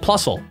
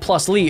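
First: It is said as one blended word. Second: It is said as two separate words. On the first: The speaker calls it right. "It just sounds like Plusle" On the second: The speaker calls it wrong. "it doesn't sound like plus Lee"

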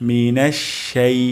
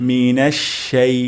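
No difference in how they are said.

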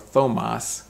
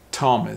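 First: The first sound is a th sound. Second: The first sound is a plain t sound. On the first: The speaker calls it wrong. "or Thomas" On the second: The speaker calls it right. "the T-H sounds like a T sound"

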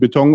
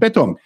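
First: The stress is on the second syllable. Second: The stress is on the first syllable. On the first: This is how it is said in Germany. "Wir haben den Beton" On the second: This is how it is said in Switzerland. "die erste Silbe sehr häufig diejenige ist, die betont wird"

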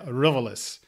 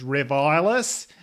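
First: The name is said in a plain English accent. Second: The name is said in an Australian accent. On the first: "With English pronunciation" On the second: "my Australian kind of came in, and it was Rivilis"

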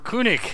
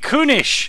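First: The final consonant sounds like a hard k. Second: The final consonant sounds like a soft ch. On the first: "in which a G sounds like a CK" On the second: "in which G's actually sound like a CH"

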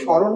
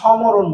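First: The word has no 'm' sound. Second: The word has an 'm' sound. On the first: The speaker calls it right. "আমরা নিশ্চয়ই স্মরণই বলি" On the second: The speaker calls it wrong. "এখানে সমরণ বলি না"

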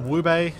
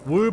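First: The name is said with an extra final syllable. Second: The name is said as one syllable. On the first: "I always read it as Woobay" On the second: "Woob or Woobay?"

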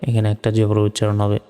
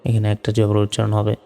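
The two takes are said the same way.

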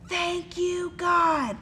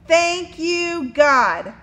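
First: It is said very quietly. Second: It is said at normal volume.

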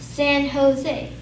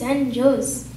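First: Jose begins with an H sound. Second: Jose begins with an English J sound. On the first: The speaker calls it right. "it's pronounced as San Jose" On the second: The speaker calls it wrong. "so this is San Jose"

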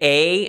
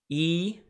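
First: The vowel sounds like 'ay'. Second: The vowel sounds like 'ee'. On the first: This is the Erasmian pronunciation. "They would say A instead of eta" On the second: This is the modern Greek pronunciation. "the eta on the right is E"

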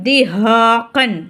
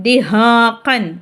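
Both takes have the same delivery.

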